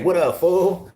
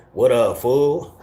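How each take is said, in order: First: "What up, fool?" pitched much higher, mock California homie; high-pitched playful Cali hello; high Cali greeting. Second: Slow, stretched "What up, fool?" like a California homie; slow mock Cali hello; drawn-out Cali greeting. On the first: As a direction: fling it up high in a Cali imitation. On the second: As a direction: draw it out lazily, Cali style. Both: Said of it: "what a lot of the California fools say".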